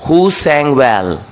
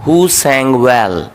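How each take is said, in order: Both takes have the same delivery.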